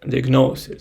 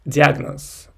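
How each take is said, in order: First: The stress falls on another syllable. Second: The stress falls on the 'a' syllable. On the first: This is how it is said in English. "and in English it's diagnosis" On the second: This is how it is said in Russian. "in Russian we say like diagnosis, the stress goes on a"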